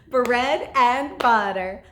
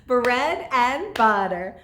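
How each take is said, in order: No difference in how they are said.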